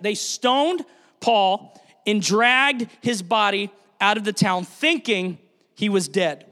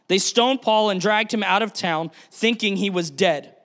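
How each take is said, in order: First: Drawn out slowly for weight; slow solemn retelling; slow, weighty repeat. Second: Said in the usual way. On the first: Shown as a demonstration. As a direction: let each word land slowly. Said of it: "Think of that". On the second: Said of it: "Pause right there. Think of that".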